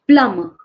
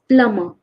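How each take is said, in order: First: The b sound is silent in the middle. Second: The same.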